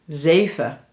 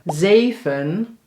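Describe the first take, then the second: First: The word ends on a schwa without n. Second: The word ends with an audible n sound.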